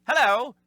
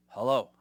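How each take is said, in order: First: A high, loud goofy sitcom hello; Lenny Squiggy hello. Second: Said in the usual way. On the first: Retold or imitated. Answering the phone in a goofy Lenny Squiggy voice. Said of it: "it wasn't a Lenny Squiggy, "Hello". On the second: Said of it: "It was more of a".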